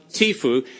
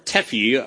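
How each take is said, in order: First: "tifu" said as TEE-foo; acronym as word. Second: "tefu" said as TEF-you; alternative acronym pronunciation. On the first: Speaker unsure how to say the treaty's acronym, trying "tifu" as TEE-foo. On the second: Speaker unsure of the treaty's acronym, offering "tefu" as TEF-you. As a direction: try "tefu" slowly with a short e, TEF-you. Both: Shown as a demonstration. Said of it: "I don't know even how to say it".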